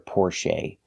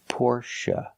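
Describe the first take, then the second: First: The last syllable has a long A vowel. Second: The last syllable has a short uh vowel. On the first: The speaker calls it wrong. "You will never hear the long A sound for the last syllable" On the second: The speaker calls it right. "the last syllable is pronounced uh"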